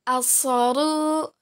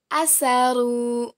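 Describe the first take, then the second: First: Asaru slowly, middle syllable heavy "so"; letter sad. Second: Asaru slowly, middle syllable light "sa"; letter sin. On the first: Teacher contrasts two letters for students, Asaru with heavy "so". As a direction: say Asaru as "asooru". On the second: Teacher contrasts two letters for students, asaru with light "sa". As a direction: say asaru with thin S, open vowel. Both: Shown as a demonstration. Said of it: "Perbandingan antara huruf so dan huruf sa".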